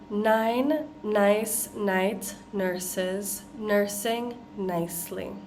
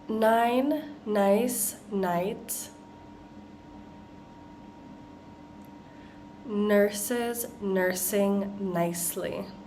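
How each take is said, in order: First: The phrase is said at a faster pace. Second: The phrase is said at a slower pace.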